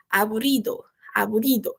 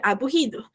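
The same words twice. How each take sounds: First: "aburrido" with the r on the tongue tip, not an h; careful "aburrido", rr kept as a tongue sound; strong Spanish R. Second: "aburrido" with rr as an h: abuhido; "aburrido" with no tongue r, just "h"; Portuguese RR. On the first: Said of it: "ele se mantém como esse R forte". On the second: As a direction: say "aburrido" as a Brazilian would read it, breathy h. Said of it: "a gente em português leria aburrido". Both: Shown as a demonstration.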